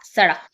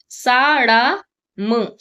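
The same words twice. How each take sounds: First: Said in the usual way. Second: सड़म dragged out very slowly as a test; wrong word tried slowly. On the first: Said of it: "सड़क होता है". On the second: Shown as a demonstration. Teacher sounding out a wrong guess for the children, very slowly. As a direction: stretch सड़म out, testing whether it fits. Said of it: "सड़म नहीं होता".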